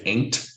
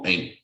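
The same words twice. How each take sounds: First: The final T is strongly released. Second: The final T is dropped. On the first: "a stronger T, like British accent" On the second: "The T just vanishes"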